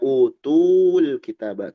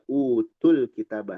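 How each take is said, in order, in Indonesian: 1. Vokal pada tu dipanjangkan. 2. Vokal pada tu pendek.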